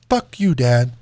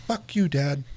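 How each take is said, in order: First: Imitating a toddler's loud defiant snap; loud retort. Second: Said in the usual way. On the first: Toddler son yelling at his dad, loud mock retort. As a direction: throw it back louder, like the kid did. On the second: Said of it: "He's three".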